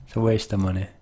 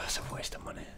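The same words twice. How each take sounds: First: Said in the usual way. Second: Breathy whispered aside under breath. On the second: Real, not acted. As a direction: whisper it to yourself. Whispered aside, then repeated plainly.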